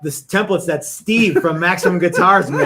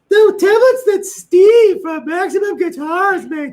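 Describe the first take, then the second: First: It is said in the speaker's ordinary voice. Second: It is said in a put-on, exaggerated voice.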